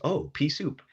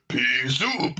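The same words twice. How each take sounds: First: Much higher, squeaky little bug voice. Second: Louder, higher mock gruff beetle growl. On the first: Retold or imitated. Tiny bug in the cartoon spots the pea, squeaky. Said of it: "a little bug picks it up and goes". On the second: Hefty beetle turns and growls, gruff. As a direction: bark it like a big hefty beetle. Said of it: "this real gruff voice".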